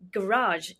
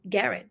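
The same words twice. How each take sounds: First: It is said the American way. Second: It is said the British/Indian way.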